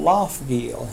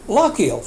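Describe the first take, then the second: First: Loughgiel as "LOFF-geel", with an F and a hard G; Loughgiel said the American way. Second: Loughgiel as "LOCK-eel", a K sound and no G, pitched a bit higher; Loughgiel said like a local. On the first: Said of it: "what I thought was called Loughgiel". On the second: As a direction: quote the Irish boy saying Loughgiel as LOCK-eel. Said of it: "He says". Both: Retold or imitated.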